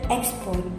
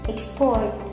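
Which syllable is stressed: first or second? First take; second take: first; second. First: The stress is on the first syllable. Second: The stress is on the second syllable. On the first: It is a noun. "As a noun, the stress is on the first syllable" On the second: It is a verb. "as a verb, the stress is on the second syllable"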